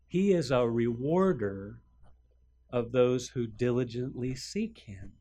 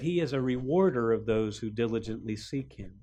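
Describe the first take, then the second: First: It is said more slowly. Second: It is said at a normal pace.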